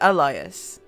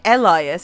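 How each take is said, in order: First: The first vowel sounds like 'uh'. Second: The first vowel sounds like 'eh'. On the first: "It's an uh" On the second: "it's not an eh"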